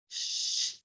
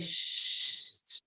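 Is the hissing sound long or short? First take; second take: short; long. First: The hissing sound is cut short. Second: The hissing sound is held long. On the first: "but shorten it" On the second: "but it's stretched out"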